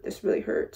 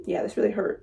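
First: "This really hurt" said in an unvoiced whisper. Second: Said in the usual way. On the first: Real, not acted. Repeating her pain to viewers, whispered.

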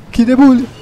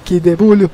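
First: Higher, louder cheer; excited shout. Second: Said in the usual way. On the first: Real, not acted. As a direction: shout it in triumph. Celebrating a kill, louder. (grito animado de vitória)

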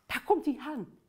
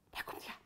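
First: Said in the usual way. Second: Breathless whisper of suspense. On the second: Shown as a demonstration. Leader whispers to the kids before they all shout. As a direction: whisper it as he comes near. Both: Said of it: "Kom, we gaan roepen".

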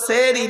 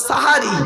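First: সেহরি with an e in the first syllable; wrong form sehri. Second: সাহারি with open a in both first syllables; correct form sahari. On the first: Preacher rejecting the common error, sehri with e. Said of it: "শব্দটা সেহরি নয়". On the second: Preacher giving listeners the right word, emphatic sahari. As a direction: stress সাহারি as sa-ha-ri. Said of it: "শব্দটা সাহারি". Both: Shown as a demonstration.

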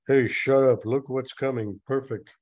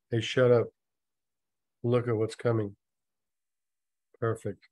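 First: Loud opening, run straight through; urgent story quote. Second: Deadpan re-reading. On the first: A narrator's reading. Mike silences Jim as a target approaches, loud and brisk. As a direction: cut him off and point out the target. Story dialogue read first time. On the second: Shown as a demonstration. Reader repeats the silly dialogue to listeners, deadpan with pauses. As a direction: pause after each short sentence. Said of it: "try not to laugh".

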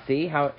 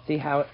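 The two takes are said the same way.

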